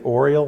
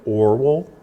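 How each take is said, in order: First: The name ends with an 'iel' sound. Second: The name ends with a 'well' sound. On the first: The speaker calls it wrong. "I always want to say Oriel because it kind of sounds like Oreo cookie" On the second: The speaker calls it right. "the correct pronunciation is something more like Orwell"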